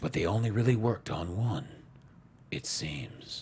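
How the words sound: It is read in an intense, dramatic voice.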